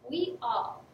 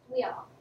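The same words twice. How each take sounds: First: The words are said separately and clearly. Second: The words run together in connected speech.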